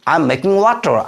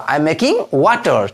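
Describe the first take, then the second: First: Said in the usual way. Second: "I am making", held apart from "water"; slow model sentence. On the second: Shown as a demonstration. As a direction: spell out "I am making water" slowly, piece by piece. Teacher repeats sentence slowly for learners.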